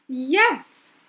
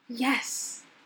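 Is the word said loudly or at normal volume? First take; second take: loud; normal. First: The word is said loudly. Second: The word is said at normal volume.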